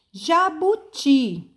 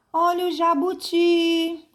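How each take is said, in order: First: Jabuti slow and high, TI drawn out; stress on final syllable. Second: Jabuti called high, final TI held; street vendor's call. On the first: Teacher sounding out jabuti for pupils, drawn-out final stress. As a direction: spell out jabuti by syllables, lengthening TI. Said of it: "uma sílaba que demorou mais". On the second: Teacher trying the selling trick on jabuti, vendor's call. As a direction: hawk the word with a long, level ending. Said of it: "é você vender a palavra". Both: Shown as a demonstration.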